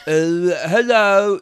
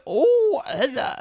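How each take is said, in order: First: Slow, failed funny voice that sounds sad; lightly glum, drawn-out hello. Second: Much higher, squeaky attempt at a comic orderly; high-pitched goofy greeting; funny voice. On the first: Acted. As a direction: drag out the greeting with a touch of sadness. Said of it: "That's a sad voice". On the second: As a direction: try out a silly high character voice. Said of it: "orderly with a funny voice".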